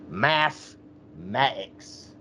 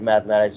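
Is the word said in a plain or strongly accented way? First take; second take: strongly accented; plain. First: It is said in a strong ghetto accent. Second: It is said in a plain accent.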